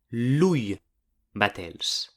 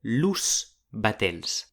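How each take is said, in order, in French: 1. L'article se termine par un son i. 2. L'article se termine par un son s. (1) "ma pla lui batels" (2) "disi pas los batels"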